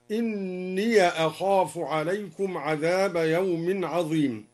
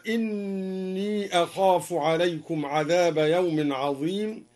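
First: إني said as inniya, with an open ya that joins the next word; ya with fatha. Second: Said in the usual way. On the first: Shown as a demonstration. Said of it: "فتح الدوري الياء وصلا". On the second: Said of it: "قوله تعالى".

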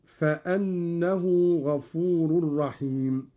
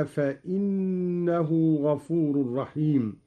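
First: Said in the usual way. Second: "فإنه" said fa-innahu, with an i; hamza with kasra. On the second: Shown as a demonstration. Teacher demonstrating Qalun, "فإنه" as fa-innahu. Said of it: "قرأ قالون بكسر الهمزة هكذا".

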